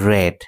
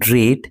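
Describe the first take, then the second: First: The vowel is short, rhyming with 'red'. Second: The vowel is long, rhyming with 'reed'. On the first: It is the past tense. "First participle ফর্মে এর উচ্চারণ হচ্ছে রেড" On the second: It is the present tense. "Present ফর্মে এর উচ্চারণ রিড"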